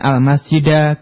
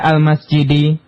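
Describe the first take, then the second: First: The word ends with an a vowel. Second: The word ends with an i vowel. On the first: The speaker calls it wrong. "bukan al-masjida" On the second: The speaker calls it right. "al-masjidi dibaca al-masjidi"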